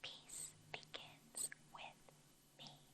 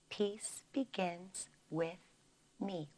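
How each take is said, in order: First: It is spoken in a soft whisper. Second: It is spoken in a normal full voice.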